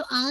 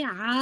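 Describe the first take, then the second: First: आ as a plain open vowel, no ayn; wrong plain vowel. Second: आ squeezed from the throat as Arabic ayn; correct ayn. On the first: Teacher shows the mistake, plain vowel. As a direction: say आ without any throat squeeze. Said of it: "तो आ नहीं". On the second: Teacher corrects to ayn, throat sound. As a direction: draw आ out from mid-throat. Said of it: "ये आ है". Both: Shown as a demonstration.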